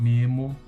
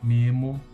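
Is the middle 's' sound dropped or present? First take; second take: dropped; dropped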